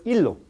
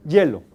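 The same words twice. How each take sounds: First: Hilo with a pure ee vowel, loud; vocalic i. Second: Hielo with a tight y glide, very loud; yod onset. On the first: Teacher asks where it is pronounced, loud hilo with vowel i. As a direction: punch hilo out with a clear i. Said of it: "¿Cuándo se pronuncia". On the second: Teacher asks where it is pronounced, loud hielo with yod. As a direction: punch hielo out as ye-lo. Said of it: "¿Dónde se pronuncia la vocal I y yod?". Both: Shown as a demonstration.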